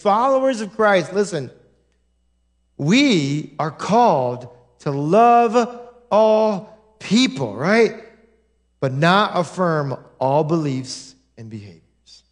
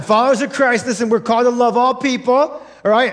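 First: Slow and weighty, each phrase set apart; solemn slow preaching; slow, deliberate statement. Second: Brisk recap of the same line; quick restatement. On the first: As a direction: lay it down slowly with pauses. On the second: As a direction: rattle it off quickly as a reminder. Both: Shown as a demonstration. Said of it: "I'll say it one more time".

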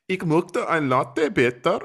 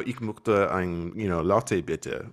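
First: Put-on "Ich möchte ein Latte bitte" slow and high in a thick cheesy German accent. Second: Put-on slow, lightly accented German order; plain German attempt. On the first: Retelling ordering at a German café, hammed-up German accent. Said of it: "kind of a cheesy German accent". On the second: Retelling ordering at a German café, slow with a light accent. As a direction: order a latte in careful German. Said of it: "unless I have an accent".

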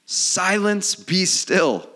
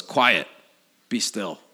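First: Loud, raised command to the storm; big ringing scripture command; commanding rebuke. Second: Understated, just-woken order; simple command, falling away at the end; casual command. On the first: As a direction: order the wind down forcefully. Reads Jesus rebuking the storm. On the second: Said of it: "wipes the sleepiness off his eyes". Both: Acted.

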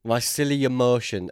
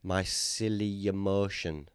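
First: "My silly emotion" said louder and brighter, selling it; louder name pitch. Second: "My silly emotion" said slowly and dreamily like a grand name; mock name pitch. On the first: Pretend. Selling the joke name to his friend, louder. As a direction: announce it proudly. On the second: Pitching a joke restaurant name, slow and grand. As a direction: present it slowly as a fancy name. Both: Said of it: "That's the name of a new restaurant".

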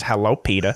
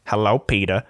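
First: The practiced Cleveland voice, low and easy; Cleveland impression. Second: Lightly voiced Cleveland; a hint of a mellow cartoon greeting. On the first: Showing her one good impression to the co-host, Cleveland voice. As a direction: drop into the cartoon neighbour's greeting. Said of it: "I can't do anything else in that voice". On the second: Quoting the Family Guy scene, a hint of Cleveland. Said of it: "Cleveland goes".

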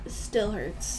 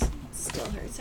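First: Said in the usual way. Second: Strained, voiceless and soft; hoarse whisper. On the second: Real, not acted. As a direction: rasp it with a sore throat.

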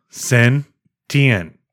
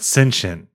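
First: "sentient" very slow, split as SEN... TEE-ent. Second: "sentient" as SEN-shent, sh for T. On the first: Reading the answer to co-host, slow SEN-tee-ent for "sentient". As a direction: break "sentient" apart, stressing the T. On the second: Correcting co-host, SEN-shent for "sentient". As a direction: say "sentient" in two syllables. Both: Shown as a demonstration. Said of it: "It's not sentient".

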